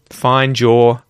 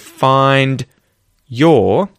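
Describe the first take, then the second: First: The words blend, with d and y becoming j. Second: Each word is said separately, with d and y. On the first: "if I link them together with connected speech" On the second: "if I say both of those words"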